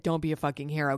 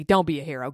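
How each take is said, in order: First: Said in the usual way. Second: "Don't" hit louder, falling firmly; stress on don't. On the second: Retold or imitated. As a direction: punch "Don't" like a firm order. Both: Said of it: "I said".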